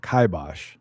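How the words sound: It uses the British pronunciation. "British English pronunciation is"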